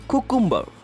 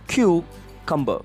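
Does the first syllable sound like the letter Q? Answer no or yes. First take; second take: no; yes. First: The first syllable does not sound like 'Q'. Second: The first syllable sounds like the letter 'Q'. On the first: The speaker calls it wrong. "Most of us pronounce this word as cucumber" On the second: The speaker calls it right. "the first C U has to be pronounced as Q"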